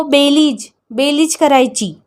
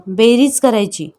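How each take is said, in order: First: बेलीज with l for r; lisping बेलीज, like a small child; childlike mispronunciation. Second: Said in the usual way. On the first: Acted. Babi eagerly repeating the lesson, with बेलीज for बेरीज.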